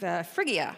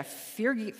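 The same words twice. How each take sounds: First: Phrygia said in full after a hesitant uh; self-corrected Phrygia; corrected pronunciation. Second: Phrygi- broken off unfinished; false start on Phrygi-; cut-off mispronunciation. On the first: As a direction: settle into Phrygia properly. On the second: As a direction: stumble on Phrygi- and stop short. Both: Real, not acted. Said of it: "see, I got it wrong too".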